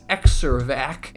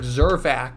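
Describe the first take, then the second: First: The name begins with an 'eks' sound. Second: The name begins with a 'z' sound. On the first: The speaker calls it right. "it's Exirvac" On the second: The speaker calls it wrong. "it's not pronounced like Zervac"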